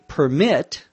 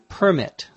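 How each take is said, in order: First: The stress is on the second syllable. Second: The stress is on the first syllable.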